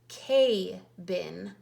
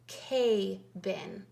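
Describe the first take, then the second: No difference in how they are said.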